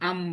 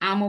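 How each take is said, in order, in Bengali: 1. শব্দটি শেষ ব্যঞ্জনে থেমে যায়। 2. শব্দটি একটি যুক্ত স্বরধ্বনি দিয়ে শেষ হয়। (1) "থেমে গেছি আম বলে" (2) "আমও বলি নাই"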